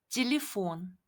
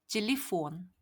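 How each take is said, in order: Both takes have the same delivery.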